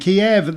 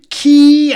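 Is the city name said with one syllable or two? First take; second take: two; one. First: The city name is said as two syllables. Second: The city name is said as one syllable. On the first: This is the older, non-approved form of the name. "We got to revert to the non-approved pronunciation" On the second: This is the officially approved form of the name. "I can't do it anymore"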